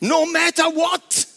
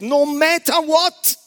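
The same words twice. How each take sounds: First: It is said in an American English accent. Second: It is said in a British English accent. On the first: "Die Amerikaner sagen ein bisschen anders" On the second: "Das sagen die Engländer"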